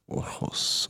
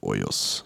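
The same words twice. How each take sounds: First: "Ojos" with a throaty Spanish j; attempted Spanish pronunciation. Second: "Ojos" with a y-glide, like O-yos; alternative pronunciation. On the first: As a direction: say "Ojos" as O-khos, with a rasped h-sound. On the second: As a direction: say "Ojos" with the j as a German j. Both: Shown as a demonstration. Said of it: "so wie man's halt richtig ausspricht".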